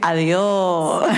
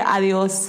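First: It is said in a relaxed Andalusian accent. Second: It is said in a standard Spanish accent. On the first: "They say adios. ... It's more relaxed, lazy Spanish" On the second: "they don't say adios like the rest of Spain"

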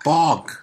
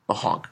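First: The word is said without the h sound. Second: The word is said with the h sound. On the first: "But you don't have to say the H" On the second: "But what if I want to say the H?"

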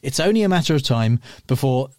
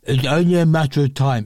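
First: It is said in his normal voice. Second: It is said in Tom's mumbly, cheese-mouthed voice.

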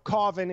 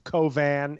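First: The name has a relaxed, everyday pronunciation. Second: The name has a precise, formal original pronunciation. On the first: This is the acceptable everyday form. "Cauvin is like how I'm cool with people saying it" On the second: This is the technically correct form. "but it's Cauvin if we're being technical"

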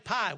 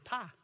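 First: The vowel is the full standard diphthong. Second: The vowel is flattened to a plain ah. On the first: Locals do not say it this way. "We don't say pie" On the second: Locals say it this way. "We say pa"

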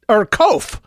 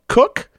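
First: It rhymes with loaf. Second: It rhymes with book. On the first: "to rhyme with loaf" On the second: "to rhyme with book like mine"

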